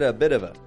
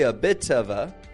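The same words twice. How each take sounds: First: The t in bit sounds like a d. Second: The t in bit is a clear, strong t. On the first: "I said a bit of a" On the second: "I didn't say a bit of a"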